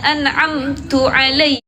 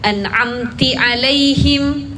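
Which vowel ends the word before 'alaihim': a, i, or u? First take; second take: u; i. First: The first word ends in a 'u' vowel. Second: The first word ends in an 'i' vowel. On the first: "Kita bacanya diganti domah atau kasrah" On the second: "Kita bacanya diganti domah atau kasrah"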